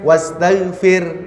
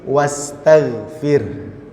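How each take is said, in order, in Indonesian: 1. Kata itu diakhiri tanpa bunyi h berdesah. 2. Kata itu diakhiri dengan bunyi h berdesah. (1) "jadi bukan hanya wastaghfir, bukan itu" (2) "seolah-olah kita mau mengucapkan huruf H"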